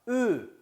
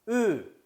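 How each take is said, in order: The two takes are said the same way.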